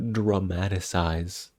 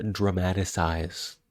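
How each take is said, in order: Both takes have the same delivery.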